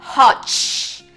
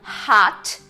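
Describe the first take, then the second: First: The word ends with a ch sound. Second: The word ends with a clean t sound. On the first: The speaker calls it wrong. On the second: The speaker calls it right.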